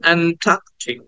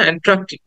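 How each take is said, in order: First: No r follows the t; the vowel is long. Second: An r sound follows directly after the t. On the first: The speaker calls it right. "টাটাকে একটু টেনে বলছি" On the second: The speaker calls it wrong. "টি এর পরে একটা আর উচ্চারণ করি"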